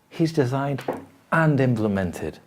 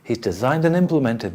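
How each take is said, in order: First: Both designed and implemented carry strong stress. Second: Neither designed nor implemented is strongly stressed. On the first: Each of the two actions matters on its own. "both things. very important" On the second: The two actions are treated as one thing. "it's kind of the same thing"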